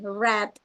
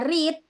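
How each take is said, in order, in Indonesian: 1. Vokalnya adalah bunyi 'eh' yang pendek. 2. Vokalnya adalah bunyi 'ee' yang panjang. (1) "kalau yang kedua ketiga pakai e" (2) "bacanya read pakai i"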